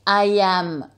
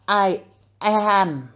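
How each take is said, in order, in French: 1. Les deux mots sont liés en douceur. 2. Les deux mots sont séparés par une pause. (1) "Faites des liaisons" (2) "je ne dis pas I am"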